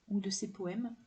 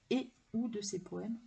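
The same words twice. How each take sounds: First: Said in the usual way. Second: "et" set apart before "ou"; stress on ET. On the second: Real, not acted. Vlogger correcting herself to and/or, stress on "et". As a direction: pick out "et", then a tiny break.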